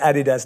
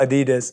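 First: It is said in a British London way. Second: It is said in an American way. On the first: This is how people in London say it. "As I say" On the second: This is how Americans say it. "not Adidas"

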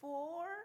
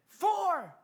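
First: It sounds unsure, like a timid question. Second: It sounds confident, like a firm statement.

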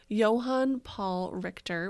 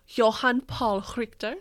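First: It is said with an ordinary English accent. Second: It is said with a put-on German accent.

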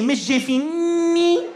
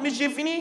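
First: The N sound is strongly emphasized. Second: The N sound is said plainly.

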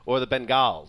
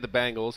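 First: The first syllable sounds like 'ben'. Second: The first syllable sounds like 'bang'. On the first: This is the way others expect it to be said. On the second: This is the speaker's own habitual way of saying it.

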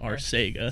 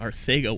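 First: The middle consonant sounds like s. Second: The middle consonant sounds like th. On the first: The speaker calls it wrong. "not Arcega" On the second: The speaker calls it right. "the C is pronounced like a TH"

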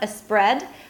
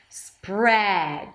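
First: A vowel sound comes before the s. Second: The word starts directly with the s. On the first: The speaker calls it wrong. "Don't add any vowels before if you're a Spanish speaker. It's not a spread" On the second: The speaker calls it right. "so you start with an S and you close it with a P"

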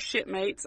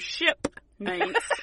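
First: The P sound is faint and unclear. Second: The P sound is strongly pronounced. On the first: The speaker calls it wrong. "I swear it sounded like you said shipmates" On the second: The speaker calls it right. "I will put emphasis on the P"

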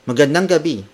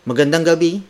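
No difference in how they are said.

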